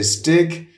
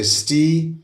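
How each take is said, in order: First: The name is said the Swedish way. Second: The name is said the Danish way. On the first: "in Sweden you say Stig" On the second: "Denmark you say Sti"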